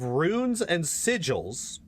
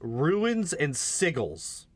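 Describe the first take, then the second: First: The first word is said as one-syllable 'runes'. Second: The first word is said as two-syllable 'ruins'. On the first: The speaker calls it right. "instead of runes and sigils" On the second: The speaker calls it wrong. "at one point he actually says ruins and sigils"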